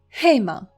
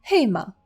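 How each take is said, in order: The two takes are said the same way.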